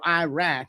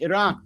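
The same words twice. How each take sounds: First: It uses the Americanized pronunciation of the name. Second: It uses a native-like pronunciation of the name. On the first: The speaker calls it wrong. "it's not Iran or Iraq" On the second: The speaker calls it right. "it's Iran and Iraq"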